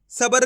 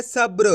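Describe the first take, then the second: First: सब्र split as "sa-bar", with an extra vowel before r; wrong pronunciation. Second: सब्र with b and r joined, "sabr"; correct pronunciation. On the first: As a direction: say सब्र wrongly as "sabar", r fully voiced after a vowel. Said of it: "सब्र नहीं पढ़ना". (सब्र को "सबर" की तरह गलत बोलें) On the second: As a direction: say सब्र with no vowel between b and r. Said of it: "इस तरीके से उच्चारण करेंगे". (सब्र में ब और र जोड़कर बोलें) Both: Shown as a demonstration.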